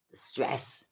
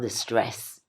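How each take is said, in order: First: Soft whispered repeat of "The stress"; whispered echo. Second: Said in the usual way. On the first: Shown as a demonstration. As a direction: breathe "The stress" as a whispered aside.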